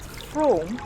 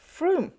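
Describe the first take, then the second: First: The vowel sounds like 'oh', rhyming with 'home'. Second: The vowel sounds like 'oo', rhyming with 'room'. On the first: The speaker calls it wrong. "I thought it's pronounced Frome" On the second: The speaker calls it right. "the correct pronunciation for it is"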